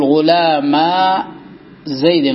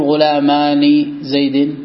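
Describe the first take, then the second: First: "غلاما" slow, ending on a long drawn-out a; dual nun dropped. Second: "غلامان" slow, ending in a sounded ni; dual nun wrongly kept. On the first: Teacher showing the annexed dual, "غلاما" slowly without nun. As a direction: stretch the last vowel of "غلاما", no ni. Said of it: "فتقول". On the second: Teacher showing the mistake, "غلامان" slowly with its nun. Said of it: "خطأ". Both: Shown as a demonstration.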